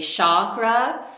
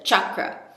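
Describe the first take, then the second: First: The word begins with an sh sound. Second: The word begins with a ch sound. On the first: The speaker calls it wrong. "say chakra like it would be in S H" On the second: The speaker calls it right. "It's a chakra"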